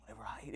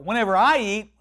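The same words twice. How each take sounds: First: Hushed imitation of a frail woman echoing; weak repeating. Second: Said in the usual way. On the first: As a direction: echo it feebly under your breath. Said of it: "So she". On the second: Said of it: "Repeat after me".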